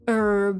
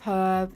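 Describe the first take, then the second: First: The word starts with a silent h. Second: The word starts with a sounded h. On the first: "they'll say um herb" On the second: "instead of herb"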